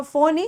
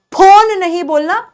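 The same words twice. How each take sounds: First: फोन said softly with an English f; correct f sound. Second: फोन said with a puffed p, not an f; wrong aspirated p. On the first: Teacher giving students the correct version. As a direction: say फोन with lip and teeth. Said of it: "बोलना इसे फो". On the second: Teacher showing students the mistake to avoid. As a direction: show the wrong फोन with a hard ph. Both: Shown as a demonstration.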